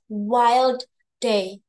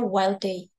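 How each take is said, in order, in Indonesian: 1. Kedua bunyi d diucapkan terpisah. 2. Kedua bunyi d menyatu jadi satu. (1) "you will not hear wild day" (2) "itu biasanya wild day"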